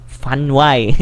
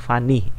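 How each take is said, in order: First: The word ends with a consonant y sound. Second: The word ends with a clear i vowel. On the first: The speaker calls it wrong. "bunyinya bukan fun y ya" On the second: The speaker calls it right. "itu dibacanya jelas-jelas i di situ ya"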